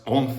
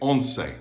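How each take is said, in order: First: The middle consonant is a th sound. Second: The middle consonant is an s sound. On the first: This is how it is said in Spain. "in Spain, it'd be pronounced once" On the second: This is how it is said in the Americas. "but we're going to say it once"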